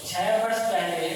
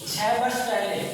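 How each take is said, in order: First: छह वर्ष पहले said slower, with छह stressed; slow repeat for clarity. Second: Said in the usual way. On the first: Shown as a demonstration. Teacher repeating the data for students, slower with छह stressed. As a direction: repeat it slowly and lean on छह.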